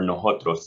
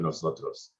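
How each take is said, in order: First: The middle consonant is an h-like sound. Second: The middle consonant is an s sound. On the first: This is the regional New Mexican form. "we replace the C or S sounds with G or J" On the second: This is the standard form. "instead of nosotros"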